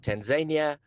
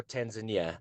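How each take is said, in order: First: "Tanzania" as tan-ZAY-nya; one accepted pronunciation. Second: "Tanzania" as tan-zuh-NEE-uh; other accepted pronunciation. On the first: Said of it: "So you can either say". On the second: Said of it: "ways of saying it are acceptable". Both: Shown as a demonstration.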